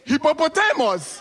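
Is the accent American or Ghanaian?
Ghanaian. It is said in a Ghanaian accent.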